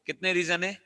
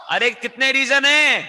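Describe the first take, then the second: First: Said in the usual way. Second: High, loud, stretched-out question; demanding shout. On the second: Real, not acted. Teacher demanding an answer from the class, demanding shout.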